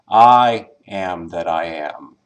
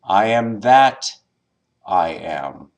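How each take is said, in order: First: The stress is on the first word, I. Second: The stress is on the word that.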